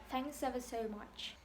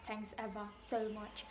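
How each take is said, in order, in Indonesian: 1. Kata-katanya menyatu dengan lancar satu sama lain. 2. Setiap kata diucapkan terpisah, satu per satu.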